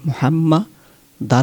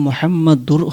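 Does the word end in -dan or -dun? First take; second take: -dan; -dun. First: The word ends with a -dan sound. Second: The word ends with a -dun sound. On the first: The speaker calls it right. "মূলত এখানে মোহাম্মা দার হবে" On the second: The speaker calls it wrong. "এখানে মোহাম্মদ দূর হয় না কেন"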